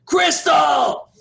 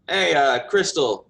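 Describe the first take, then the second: First: Loud, high-pitched holler; shouting. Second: Slightly raised, louder call. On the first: Baker yells for his daughter in back, full shout. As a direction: bellow the name toward the back room. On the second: Baker calls his daughter out, moderately raised voice. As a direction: call to someone in the next room. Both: Acted.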